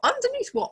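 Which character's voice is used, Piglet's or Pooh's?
Piglet's. It is said in Piglet's voice.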